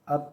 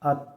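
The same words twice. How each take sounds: First: The final consonant is released with an echoing bounce. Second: The final consonant stops flat without an echo. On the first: "कलकला के साथ" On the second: "बग़ैर कलकला के"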